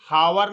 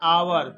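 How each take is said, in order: First: The word begins with an h sound. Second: The word begins directly with a vowel. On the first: The speaker calls it wrong. "हावर नहीं पढ़ेंगे" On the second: The speaker calls it right. "क्या पढ़ेंगे? आवर"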